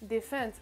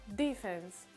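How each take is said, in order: First: The stress is on the second syllable. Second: The stress is on the first syllable. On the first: "l'accentuation, surtout pour cette catégorie-là, se fera sur la deuxième syllabe" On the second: "la prononciation avec l'accentuation sur le D"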